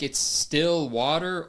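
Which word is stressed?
water. The stress falls on the word water. It is nevertheless just water. "does she mean like"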